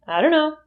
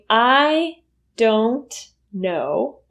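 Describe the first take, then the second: First: Don't know is reduced to dunno with schwa. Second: Don't is said clearly with its full vowel. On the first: "it's much easier to say" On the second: "Instead of saying"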